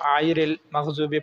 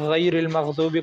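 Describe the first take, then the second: First: It begins with a tight throaty vowel. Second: It begins with a gargled gh sound. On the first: The speaker calls it wrong. "फिर ये आयरिल मग़ज़ूबी हो जाएगा, जो कि गलत है" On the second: The speaker calls it right. "अदना हलक से इसको अदा किया जाए तो फिर इसकी अदायगी दुरुस्त होगी"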